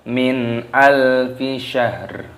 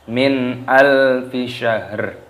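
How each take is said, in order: Both takes have the same delivery.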